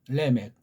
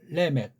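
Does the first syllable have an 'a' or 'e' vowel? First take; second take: e; e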